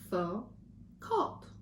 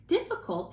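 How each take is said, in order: First: Slow, syllable by syllable; split into syllables. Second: Said in the usual way. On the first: Shown as a demonstration. Teacher counting syllables for the class, slow and chopped. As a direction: chop each syllable out slowly. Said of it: "let's count how many times my jaw drops". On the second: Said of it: "Difficult has".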